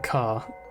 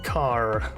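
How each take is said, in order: First: The final R is dropped. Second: The final R is clearly pronounced. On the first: "I don't pronounce the R at all" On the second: "Americans put a lot of emphasis on the R at the end"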